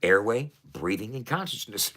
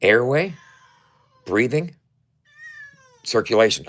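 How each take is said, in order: First: Said in the usual way. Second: Airway, breathing, circulation said louder, each word rising, as the fix; corrected, emphatic. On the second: Shown as a demonstration. Correcting his slip for viewers, louder with rising list words. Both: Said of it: "I said consciousness".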